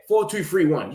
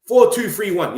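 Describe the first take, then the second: First: Said in the usual way. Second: Four two three one, said loud with a hit on four; emphatic correction. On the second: Shown as a demonstration. Streamer correcting the formation to viewers, loud emphatic. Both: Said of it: "Four three".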